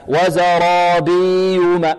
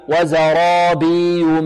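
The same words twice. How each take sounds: Both takes have the same delivery.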